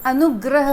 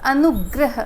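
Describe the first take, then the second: First: The last syllable is said as 'grah'. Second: The last syllable is said as 'grah'.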